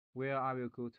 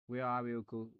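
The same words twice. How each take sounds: The two takes are said the same way.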